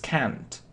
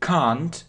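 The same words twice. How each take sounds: First: It is said in an American accent. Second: It is said in a British accent. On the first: "If it's American pronunciation" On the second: "if it's British pronunciation"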